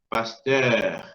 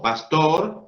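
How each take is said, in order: First: The second vowel is a rounded French eu. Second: The second vowel is a plain Spanish o. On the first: The speaker calls it right. "Emito una E disfrazada de O" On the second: The speaker calls it wrong. "En vez de decir O pastor"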